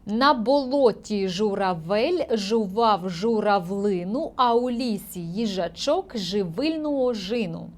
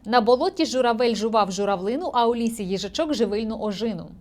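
First: It is read slowly and carefully. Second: It is read quickly. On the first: "Тепер я читаю без олівця повільно" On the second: "І пробую пришвидшитися"

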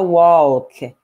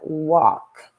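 First: The L sound is pronounced in the word. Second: The L sound is silent in the word. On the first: The speaker calls it wrong. "Você não fala walk" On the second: The speaker calls it right. "o L é mudo"

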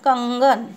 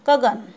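First: There is a nasal sound before the g. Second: There is no nasal sound before the g. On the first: The speaker calls it right. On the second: The speaker calls it wrong.

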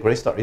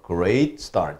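First: The word great is short and unstressed. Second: The word great is loud, long and emphasized. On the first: The speaker calls it wrong. "짧게 great start 이렇게 하지 마시고" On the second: The speaker calls it right. "이렇게 좀 강조해서 크게 좀 길게 읽어주는 것이 좋습니다"

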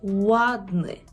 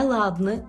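First: The word begins with a rounded w sound. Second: The word begins with a hard l sound. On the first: The speaker calls it right. "маємо тут губний звук" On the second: The speaker calls it wrong. "Не «ладний»"

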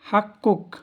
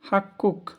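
Both takes have the same delivery.

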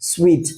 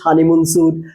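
First: The word sounds like 'sweet'. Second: The word sounds like 'soot'. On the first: The speaker calls it right. "উচ্চারণটা হবে সুইট, not সুট" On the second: The speaker calls it wrong. "আমরা বলি যে honeymoon স্যুট"

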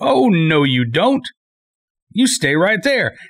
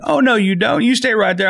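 First: It is said in a stern, threatening tone. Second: It is said in a warm, friendly tone.

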